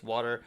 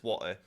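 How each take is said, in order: First: Said in the usual way. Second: "water" with no T, as spoken in Britain; British dropped T. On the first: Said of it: "but in person". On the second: Shown as a demonstration. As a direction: swap the T in "water" for a glottal catch. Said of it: "it's water on text".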